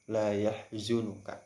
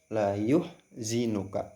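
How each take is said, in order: First: The vowel after y is a. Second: The vowel after y is u. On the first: "Fathah pada huruf ya" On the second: "dengan harokat dhammah"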